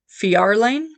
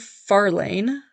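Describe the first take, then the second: First: The name starts with an F-Y sound. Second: The name starts with a plain F sound. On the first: The speaker calls it right. "Fjord is also F J, so that should be Fjarlane? That sounds better" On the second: The speaker calls it wrong. "I think I said that right"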